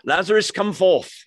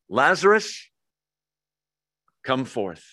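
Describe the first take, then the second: First: It is said in a British accent. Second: It is said in a plain American accent.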